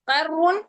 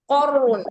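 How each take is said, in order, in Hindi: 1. q ध्वनि हल्की है, पतले 'a' के साथ। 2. q ध्वनि भारी है, भरे 'o' जैसे स्वर के साथ। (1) "कर नहीं है ना" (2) "कौ कौ बुलंद करिए"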